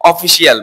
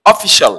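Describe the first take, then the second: First: অফিসিয়াল in four syllables, "o-fi-si-al"; wrong pronunciation. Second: অফিসিয়াল in three syllables, "o-FI-shol"; correct pronunciation. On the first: Teacher demonstrates the mistake to students, mispronounced. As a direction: separate the final "i-al" in অফিসিয়াল. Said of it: "ভুল উচ্চারণ". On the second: Teacher models the right form for students, corrected pronunciation. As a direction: shrink the end of অফিসিয়াল to "shol". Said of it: "এটা correct pronunciation". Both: Shown as a demonstration.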